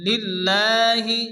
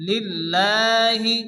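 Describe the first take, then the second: Both takes have the same delivery.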